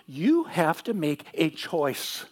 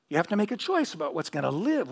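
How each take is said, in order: First: Each word of "You have to make a choice" laid down slowly and firmly, louder; slow emphatic repeat. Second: Said in the usual way. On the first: Acted. Preacher driving his point home to the congregation, slow and emphatic. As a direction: hammer the words "make a choice" one by one, slowly. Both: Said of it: "Did you hear what I just said?".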